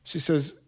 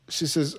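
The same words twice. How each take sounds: The two takes are said the same way.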